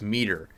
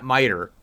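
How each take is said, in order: First: The T is crisp, English style. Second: The T is soft, American style. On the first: The speaker calls it right. "I think it's a harder T" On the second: The speaker calls it wrong. "I think it's not miter"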